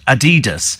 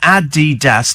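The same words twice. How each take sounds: First: The stress is on the second syllable. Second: The stress is on the first syllable. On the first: The speaker calls it wrong. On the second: The speaker calls it right. "It's pronounced uh"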